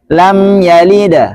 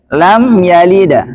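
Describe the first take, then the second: The two takes are said the same way.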